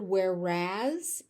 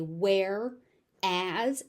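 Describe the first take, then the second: First: It is run together smoothly as one word. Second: It is split into two distinct separated parts. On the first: "when I say it as one word" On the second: "when I overpronounce it, I say where as"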